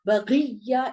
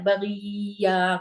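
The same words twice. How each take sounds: First: The doubled consonant is stressed and the ending clipped. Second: The ending vowel is stretched out long. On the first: The speaker calls it right. "थोड़ा सा आपको एम्फसाइज करके पढ़ना है, तकिया जकिया बगिया इस तरह से पढ़ना है" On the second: The speaker calls it wrong. "आपने इसको खींच के नहीं पढ़ना है, बगिया करके नहीं पढ़ना है"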